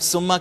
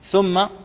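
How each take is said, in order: First: The word begins with a plain s sound. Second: The word begins with a soft th sound. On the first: The speaker calls it wrong. "हम सुम्मा कहते हैं जो कि गलत है" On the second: The speaker calls it right. "सा को अंडरलाइन कर लेंगे"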